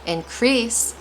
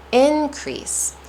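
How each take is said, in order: First: Increase said in-CREASE; light in, longer CREASE in increase; stress on second syllable. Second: Increase said IN-crease, IN much higher; stress on IN. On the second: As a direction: punch the IN of increase high. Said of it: "I'm stressing in". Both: Shown as a demonstration.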